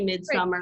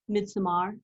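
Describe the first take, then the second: First: The word is pronounced in a plain, ordinary way. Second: The word is pronounced in an affected, showy way. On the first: This is the everyday way of saying it. "I say midsummer" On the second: The speaker is being pretentious. "when I want to be pretentious, like right now, I'll say, oh"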